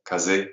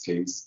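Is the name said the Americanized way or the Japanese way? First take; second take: Japanese; Americanized. First: It is said with Japanese-style vowels. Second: It is said with American English vowels. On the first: It keeps the original Japanese word for wind. "correct way of, of saying the word is kaze because it's from the Japanese wind" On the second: It is an easier, adapted version of the word. "we can Americanize things. It's easier for us"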